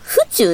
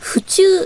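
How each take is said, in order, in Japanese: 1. 「府中」のアクセントは'uchuu'と同じです。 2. 「府中」のアクセントは'chikyuu'と同じです。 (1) "私ずっと府中市のことを府中って発音で呼んでたんですよ" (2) "府中市だから、府中って言うらしくて"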